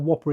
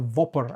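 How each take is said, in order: First: The word begins with a W sound. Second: The word begins with a V sound. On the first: "instead of a Whopper" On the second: "it's with a V"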